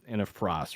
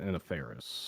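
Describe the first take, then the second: First: The name sounds like 'Frost'. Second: The name sounds like 'Ferris'. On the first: The speaker calls it wrong. "I mispronounced this" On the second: The speaker calls it right. "In a Ferris, yeah"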